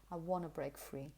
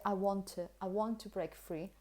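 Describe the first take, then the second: First: "wanna" with no t, softer; quiet, casual "wanna"; wanna reduction. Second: "to" as light "tuh" after "want"; flowing phrase, "to" unstressed; connected weak form. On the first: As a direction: melt "want to" into "wanna". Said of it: "something like wanna". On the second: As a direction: run "want to" together. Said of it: "Because you say". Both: Shown as a demonstration.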